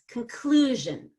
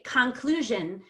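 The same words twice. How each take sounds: First: The first syllable is a quick reduced kun. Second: The first syllable is a full, unreduced con. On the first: The speaker calls it right. "I have to reduce con to kun. And it's very fast" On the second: The speaker calls it wrong. "now you have destroyed the rhythm of English"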